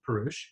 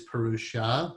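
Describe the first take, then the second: First: The word ends with a consonant sound. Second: The word ends with a final vowel sound. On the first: The speaker calls it right. "a more accurate pronunciation" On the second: The speaker calls it wrong. "Sometimes you hear it as Purusha"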